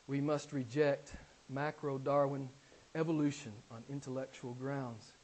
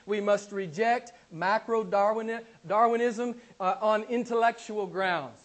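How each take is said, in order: First: Softer, lower, settled repeat of the claim; quiet restatement. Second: Slow, hammered words with macro-Darwinism punched; emphatic declaration. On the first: Preacher repeating his point to the congregation, now quiet and low. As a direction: drop the voice and let it sink in. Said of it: "Did you hear me?". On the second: Preacher demanding his congregation hear him, slow and emphatic. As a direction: lean hard on every word so they hear you. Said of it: "I want you to hear me". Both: Shown as a demonstration.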